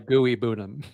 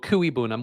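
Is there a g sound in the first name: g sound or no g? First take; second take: g sound; no g. First: The first name has a g sound. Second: The first name has no g sound. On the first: The speaker calls it wrong. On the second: The speaker calls it right.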